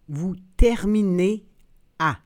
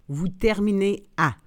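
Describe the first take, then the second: First: The phrase is said slowly and carefully. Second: The phrase is said at natural conversational speed. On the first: "then slowly said in French" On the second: "and then in communicational Canadian French"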